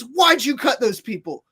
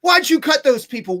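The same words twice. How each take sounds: First: Raised, sharp demand from an airport clerk; mock-yell it at the guy who cut the line; imitating a clerk starting to shout; retold yelling. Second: Higher and louder, the clerk's yell ramping up; hammed-up clerk yelling the question again; louder retold yell. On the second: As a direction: push the repeat harder, full mock shout. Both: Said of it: "starts yelling at me".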